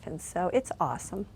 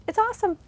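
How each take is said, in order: First: Said in the usual way. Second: Awesome sung out much higher; high, bright exclamation of joy; excited burst. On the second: Real, not acted. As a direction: gush with delight on awesome.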